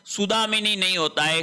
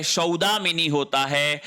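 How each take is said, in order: First: सुदामिनी with a short उ at the start; wrong first vowel. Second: सौदामिनी opening on a full औ; correct first vowel. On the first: (सुदामिनी में शुरू में उ की ध्वनि) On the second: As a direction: open सौदामिनी with a clear औ sound. (सौदामिनी में शुरू में औ की ध्वनि) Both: Shown as a demonstration.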